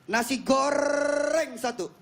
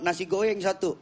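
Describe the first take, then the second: First: The r sound is pronounced clearly in goreng. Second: The r sound is replaced, sounding like goyang. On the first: The speaker has practised and now pronounces it properly. The speaker calls it right. "dia tiap hari dia belajar nasi goreng" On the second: The speaker cannot pronounce the r sound. The speaker calls it wrong. "dia lahir cadel"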